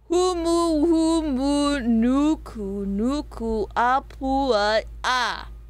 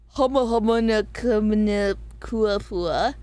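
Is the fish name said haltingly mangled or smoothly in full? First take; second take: full; mangled. First: The name is said with repeated humu, nuku syllables. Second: The name comes out garbled with changed syllables. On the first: The speaker calls it right. "It's pronounced like this" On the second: The speaker calls it wrong. "It's not pronounced that"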